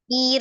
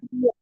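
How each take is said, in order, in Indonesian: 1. Bunyi r-nya ringan dan tipis. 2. Bunyi r-nya tebal dan berat.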